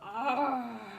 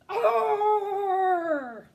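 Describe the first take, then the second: First: It is said with an excited gasp. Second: It is said as a frightened alarm.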